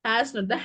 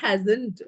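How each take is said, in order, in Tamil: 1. இரண்டு முழு சொற்களாகச் சொல்லப்படுகிறது. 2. ஒரு சுருக்கிய சொல்லாகச் சொல்லப்படுகிறது.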